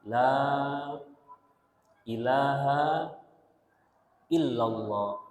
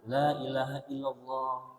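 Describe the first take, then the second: First: The phrase is said slowly and gently. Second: The phrase is said quickly, all at once. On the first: The speaker calls it right. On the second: The speaker calls it wrong. "jangan langsung semuanya"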